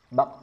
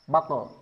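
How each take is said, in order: First: The final q ends in a bare echo. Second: The final q is followed by an added vowel. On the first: The speaker calls it right. "Tapi betul-betul pantulan" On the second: The speaker calls it wrong. "bukan sengaja ditambah vokal e"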